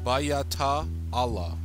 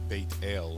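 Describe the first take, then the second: First: It is said long, with extra vowels added. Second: It is said short, with two syllables. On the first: "if this was uh, Lishawan Kadash pronunciation, the way they teach it in their schools" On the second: "That actually should be uh, Beit El in uh, biblical Hebrew when it comes to the vowels"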